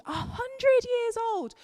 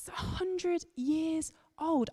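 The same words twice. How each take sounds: First: Put-on "a hundred years old" jumped way up into a high, squeaky, slowed voice; squeaky emphasis. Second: Put-on "a hundred years old" very slow, softer, weight on "hundred"; drawn-out "a hundred years old", leaning on "hundred"; emphasizing the words. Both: Shown as a demonstration. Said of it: "emphasizing the words".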